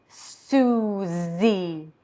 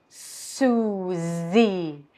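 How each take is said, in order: Both takes have the same delivery.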